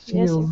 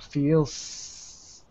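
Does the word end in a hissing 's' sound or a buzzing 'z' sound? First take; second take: z sound; s sound. First: The word ends in a buzzing z sound. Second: The word ends in a hissing s sound. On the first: The speaker calls it right. "I can go feels" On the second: The speaker calls it wrong. "And I can't do that for an S. I can't go feels"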